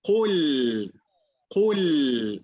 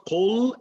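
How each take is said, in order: First: Kul said right, from the back of the throat; correct kul. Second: Kul said with too light a k and a rising tune; wrong kul. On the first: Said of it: "it's kul". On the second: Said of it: "It's not kul". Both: Shown as a demonstration.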